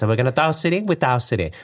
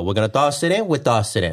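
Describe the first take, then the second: First: Higher-pitched, singsong Italian accent; effeminate Italian accent. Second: Put-on singsong Italian accent, lifting then dropping; Italian game-show host's playful patter. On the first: Shown as a demonstration. Husband redoing the mover voice higher for his wife, effeminate Italian accent. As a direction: lift the Italian voice up high and effeminate. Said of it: "it was more effeminate, though. It was, like, higher". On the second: Husband holding up objects on a pretend game show, Italian accent. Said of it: "It was an Italian game show".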